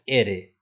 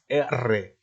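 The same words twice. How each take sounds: First: The r sound is soft and short. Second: The r sound is strong and rolled. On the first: The speaker calls it wrong. "No es R" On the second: The speaker calls it right. "es R. Entonces, esto es fuerte"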